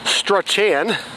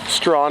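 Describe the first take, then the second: First: The name is said the way it is spelled. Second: The name is said as one syllable, Strawn. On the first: The speaker does not know the local name. The speaker calls it wrong. "you'd probably pronounce it Strachan" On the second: The speaker knows the local name. The speaker calls it right. "the correct pronunciation is Strawn"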